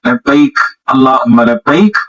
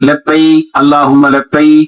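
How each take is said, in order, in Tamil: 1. ஒவ்வொரு labbaik-உம் தெளிவான இறுதி k ஒலியுடன் முடியும். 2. ஒவ்வொரு labbaik-உம் இறுதியில் k ஒலி இல்லாமல் முடியும். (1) "அது இக்கு வரணும் கரை கடைசியில" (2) "சில பேர் தல்பியா சொல்லும் பொழுது ... அப்படின்னுவாங்க. அப்படி இல்ல"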